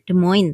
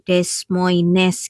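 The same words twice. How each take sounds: First: It is pronounced the way English speakers say it. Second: It is pronounced letter by letter as spelled. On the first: "kalau bahasa Inggris mereka menyebutnya Des Moines" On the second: "kalau pengucapan lidah saya, lidah Indonesia... sesuai dengan itu hurufnya"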